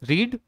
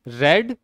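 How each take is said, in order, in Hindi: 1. स्वर लंबा है, 'reed' की तरह। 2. स्वर छोटा है, 'red' की तरह।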